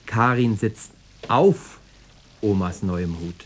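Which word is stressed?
auf. The stress falls on the word auf. She is on the hat, not under it. "Weil drunter nicht viel Platz ist"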